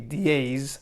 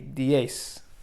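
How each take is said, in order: First: The word ends with a buzzing z sound. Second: The word ends with a hissing s sound. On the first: The speaker calls it wrong. "It won't be diez" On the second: The speaker calls it right. "but it'll be diez for ten"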